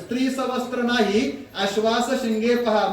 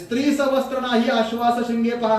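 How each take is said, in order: First: There is a pause right before nahi. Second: It runs on with no pause before nahi. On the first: The woman is clothed and horses have no horns. The speaker calls it right. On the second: The woman has no clothes and horses have horns. The speaker calls it wrong.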